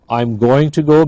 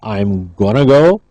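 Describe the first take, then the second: First: 'Going to' is said as two full words. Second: 'Going to' is run together as 'gonna'.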